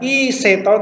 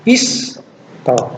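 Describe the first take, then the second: First: A short vowel is sounded between s and t. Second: No vowel is sounded between s and t. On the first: The speaker calls it wrong. "Bukan iseto" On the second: The speaker calls it right. "tapi isto"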